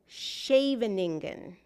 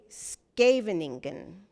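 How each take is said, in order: First: The name is pronounced with a German accent. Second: The name is pronounced with a Dutch accent. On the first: The speaker would be exposed as a German spy. The speaker calls it wrong. "Germans pronounce it like" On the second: The speaker is a genuine Dutch speaker. The speaker calls it right. "but Dutch speakers say"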